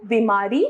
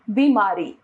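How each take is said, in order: First: बीमारी with a short first i; wrong pronunciation. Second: Said in the usual way. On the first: Shown as a demonstration. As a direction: say बीमारी as bi-maa-ree, rising. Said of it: "अशुद्ध रूप". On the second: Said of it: "इसका शुद्ध रूप".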